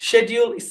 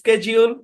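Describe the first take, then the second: First: It is said with a British pronunciation. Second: It is said with an American pronunciation. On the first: "British English" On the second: "American ইংলিশে"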